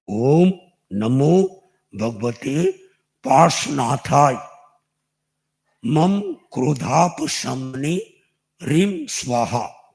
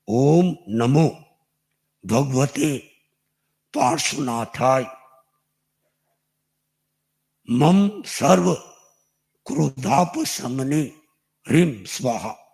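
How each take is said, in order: First: It is said at a normal speed. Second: It is said slowly.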